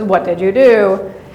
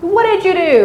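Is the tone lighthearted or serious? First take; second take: serious; lighthearted. First: The question sounds heavy and stern. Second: The question sounds light and playful. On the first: The speaker means it seriously. "someone's being very serious" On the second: It is a joke. "a joke or lighthearted"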